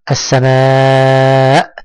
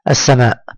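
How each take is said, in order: First: السماء with a very long aa, lifting at the end; drawn-out madd. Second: السماء said briskly, aa kept short; quick reading. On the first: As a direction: hold the aa of السماء steadily. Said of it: "قل معي". (مدّ الألف طويلًا في السماء) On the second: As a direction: read السماء quickly without stretching it. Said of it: "أنا أنطق الكلمات بسرعة". (نطق السماء بسرعة دون مدّ) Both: Shown as a demonstration.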